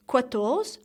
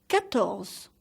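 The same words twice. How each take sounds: First: "quatorze" wrongly said with a kw sound, kwa-torz; wrong pronunciation. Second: "quatorze" starting with a plain k, ka-torz; correct French pronunciation. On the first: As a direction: show the mistake in "quatorze" by sounding the u as w. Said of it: "So please don't say quatorze". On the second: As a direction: say "quatorze" with no w after the k. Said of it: "So please don't say quatorze, but". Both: Shown as a demonstration.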